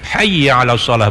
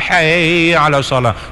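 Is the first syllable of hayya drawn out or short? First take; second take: short; drawn out. First: The first syllable is kept short. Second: The first syllable is drawn out long. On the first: The speaker calls it right. "jangan dipanjangkan" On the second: The speaker calls it wrong.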